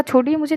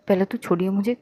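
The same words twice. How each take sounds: First: Higher, firmer insist on छोड़िए; insistent repeat. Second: Said in the usual way. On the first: Acted. Muskan repeating let go of me, firmer and higher. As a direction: repeat छोड़िए मुझे harder, losing patience. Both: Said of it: "मैंने कहा".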